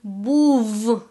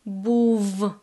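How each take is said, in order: First: The final sound is a clear v. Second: The final sound is a clear v.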